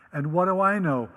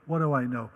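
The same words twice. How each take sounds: First: Playful rhetorical "I"; stress on I. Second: "What" hit first, then "do I know" falls lower; dry rhetorical "What"; stress on WHAT. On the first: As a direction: lean hard on "I" in "what do I know". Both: Shown as a demonstration.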